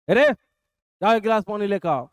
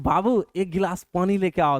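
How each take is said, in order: First: It is said in a harsh, bossy tone. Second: It is said in a sweet, affectionate tone.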